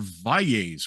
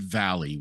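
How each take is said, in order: First: The name is pronounced the Spanish way. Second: The name is pronounced the English way. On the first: The family embraces its Spanish heritage. The speaker calls it right. "no, we are Valles" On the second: The family had adopted an anglicized identity. The speaker calls it wrong. "We were anglicized Valley"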